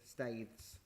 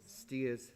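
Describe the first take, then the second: First: The vowel sounds like 'ay', as in stays. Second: The vowel sounds like 'ear', as in steers. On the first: This is the speaker's own preferred way of saying it. "I still prefer staids" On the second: This is how the locals say the name. "they call it steers"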